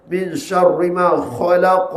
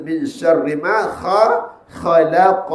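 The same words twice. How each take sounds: First: Khalaq with a thin, flat kha, slowly; wrong kha. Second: Khalaq with the mouth open, kha thick and raised, slowly; correct kha. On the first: Teacher showing students a wrong khalaq. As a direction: read khalaq the wrong way, mouth narrow. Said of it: "Tak boleh baca gitu". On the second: Teacher demonstrating the right khalaq. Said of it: "Buka rongga mulut". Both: Shown as a demonstration.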